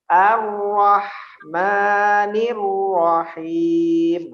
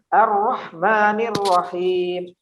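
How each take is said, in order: First: It is recited at a medium pace. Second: It is recited at a fast pace.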